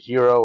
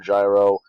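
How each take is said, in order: First: The word begins with a breathy H sound. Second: The word begins with a J sound. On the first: "whether you pronounce it hero" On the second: "or gyro"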